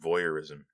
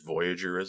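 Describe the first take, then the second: First: The word is said as voyeurism. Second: The word is said as voyagerism. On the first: The speaker calls it right. "read the word voyeurism" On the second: The speaker calls it wrong. "read it as voyagerism"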